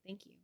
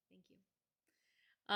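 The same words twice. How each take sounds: First: Said in the usual way. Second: Whispered thanks. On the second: Real, not acted. Thanks repeated breathily.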